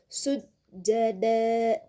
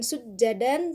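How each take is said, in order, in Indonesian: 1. Kata ini diakhiri dengan vokal yang dipanjangkan. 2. Kata ini diakhiri dengan bunyi n. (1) "tapi dibacanya sujada" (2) "bukan sujadan"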